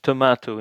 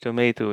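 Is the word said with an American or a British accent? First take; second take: British; American. First: It is said with a British accent. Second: It is said with an American accent. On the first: "It's tomato in British English" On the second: "tomato in uh, in, uh, in in in American English"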